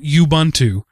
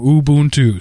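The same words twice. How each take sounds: First: Each u vowel has a different sound. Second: All three u vowels have the same sound. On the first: The speaker calls it wrong. "where each one has its own separate sound" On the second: The speaker calls it right. "All three groups of O's have the same sound"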